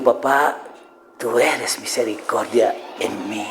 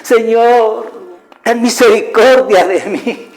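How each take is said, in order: First: Soft, slow, low and assured; calm, intimate prayer. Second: High, drawn-out mock wailing plea; imitated crying. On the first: Shown as a demonstration. Believer talking to God as Papá, calm intimate prayer. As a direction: speak tenderly to a father, slow and hushed. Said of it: "¿Ves la diferencia?". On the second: Believer begging God for mercy, imitated crying. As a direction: act out begging through tears, pitched well up. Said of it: "yo lo dije muchas veces llorando".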